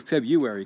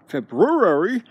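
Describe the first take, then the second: First: The first r sound is dropped. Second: The first r sound is pronounced. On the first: "I always say February because I don't pronounce the XR" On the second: "February sounds kind of strong"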